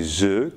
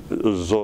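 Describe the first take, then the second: First: Said in the usual way. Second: "Z" as the emphatic consonant. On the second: Shown as a demonstration. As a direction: say "Z" with emphatic, heavy articulation. (« Z » prononcé comme consonne emphatique) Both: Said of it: "emphatique comme aisé".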